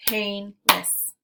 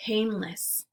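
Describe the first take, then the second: First: "Painless" in two distinct beats, PAIN, LESS; split into syllables. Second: Said in the usual way. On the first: Shown as a demonstration. Teacher clapping out syllables for learners, "Painless" segmented as pain ... less. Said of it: "we'll clap out the syllables". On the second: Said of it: "Let's segment syllables now".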